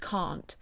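The vowel is a long, open ah.

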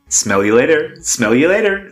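It is said in an attempted American accent. "I can't do it in an American accent"

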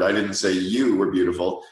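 The stress falls on "you". "or the fourth word"

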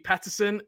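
The name is said with an American pronunciation. "I think in America, it would be Peterson"

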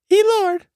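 It is said in a put-on female voice.

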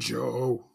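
The word is said in a deep voice. The speaker calls it wrong. "Joe didn't have a deep voice. Remember, like in the shorts, he goes"

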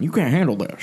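It is said in an impersonation of Ruckman.

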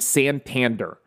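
The A sounds are hard and flat. This is how a local from Cleveland says it. "A Clevelander would say this name Santander. That's how a Clevelander would say this last name"

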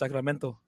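The t is clear, in a Spanish accent. "what if I say with a Spanish accent?"

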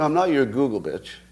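Google and bitch run together as one word.

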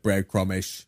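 The word is said in a Cockney accent.

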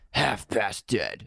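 The title is said in a cool, dramatic way. The speaker calls it right. "There you go"

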